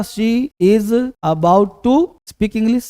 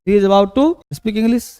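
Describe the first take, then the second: First: Very slow, word by word for students; teacher slowly dictating the English sentence to his students; slow dictation. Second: Said in the usual way. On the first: Shown as a demonstration. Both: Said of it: "क्या बताएं बेटा".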